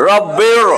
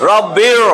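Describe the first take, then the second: Both takes have the same delivery.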